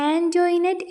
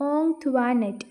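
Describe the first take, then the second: First: ആൻ്റോയിനറ്റ് said as an-joy-net, ending on t; ആൻ്റോയിനറ്റ് with a "joy" middle and final t; classmates' pronunciation. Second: ഓങ് ത്വാ നെറ്റ് said as ong-twa-net; ഓങ് ത്വാ നെറ്റ് with nasal "ong" and "twa" middle; taught French-style pronunciation. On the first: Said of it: "എങ്ങനെയാണ് ഉച്ചരിച്ചത്". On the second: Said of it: "എങ്ങനെയാ pronounce ചെയ്യേണ്ടത്". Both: Shown as a demonstration.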